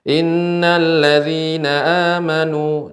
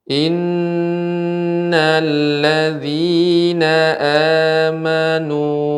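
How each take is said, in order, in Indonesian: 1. Dibacanya cepat, dengan dengung sengau yang pendek. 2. Dibacanya lambat, dengan dengung sengau yang panjang. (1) "berbeda ketika kita membaca dengan cepat" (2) "misalnya saya membaca lambat"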